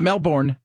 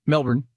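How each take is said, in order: First: Melbourne said as MEL-born, a full "born" at the end; Melbourne the American way, stressing "born"; wrong pronunciation. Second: Melbourne said as MEL-bn, the ending swallowed; Melbourne like a local, "MEL-bn"; right pronunciation. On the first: Host showing the wrong Melbourne, full MEL-born. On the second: Host giving listeners the proper Melbourne, MEL-bn. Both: Shown as a demonstration. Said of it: "not Melbourne".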